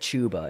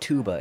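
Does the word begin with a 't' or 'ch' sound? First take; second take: ch; t. First: The word begins with a ch sound. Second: The word begins with a plain t sound. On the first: This is the British way to say it. The speaker calls it right. "instead of chuba" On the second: This sounds American rather than British. The speaker calls it wrong. "I said tuba instead of chuba, and she was like, that's not British"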